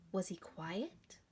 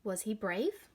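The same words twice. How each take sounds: First: Softer, slow question; quietly. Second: Said in the usual way. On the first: Shown as a demonstration. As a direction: let the word quiet go hushed. Teacher asks children about Leonard.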